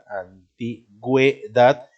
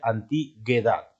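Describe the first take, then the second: First: The u after the g is clearly sounded. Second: The u after the g is silent. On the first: The speaker calls it right. "estoy pronunciando la U" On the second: The speaker calls it wrong. "si no se pusiera diéresis, diría antiguedad"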